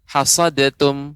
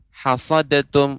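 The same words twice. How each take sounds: No difference in how they are said.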